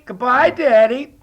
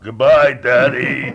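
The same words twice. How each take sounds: First: It is hollered in a high childlike voice. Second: It is said in a low, groggy morning voice.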